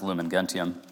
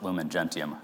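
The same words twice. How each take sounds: First: It uses classical Latin pronunciation. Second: It uses ecclesiastical Latin pronunciation. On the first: The speaker calls it wrong. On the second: The speaker calls it right.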